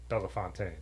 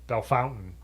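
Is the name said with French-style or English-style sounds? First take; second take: French-style; English-style. First: The name is said with French-style sounds. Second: The name is said with English-style local sounds. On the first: This is how the name is said in France. "in the French pronunciation, it is Bellefontaine" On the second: This is how the people who live there say it. "Bellefontaine is how everyone who lives there calls it"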